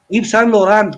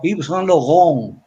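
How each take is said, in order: First: It is said with Spanish-style pronunciation. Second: It is said with French pronunciation. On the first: This is how people commonly say it. The speaker calls it wrong. "No es Yves Saint Laurent, como dice la gente" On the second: This is the original pronunciation. The speaker calls it right. "sino Yves Saint Laurent, francés"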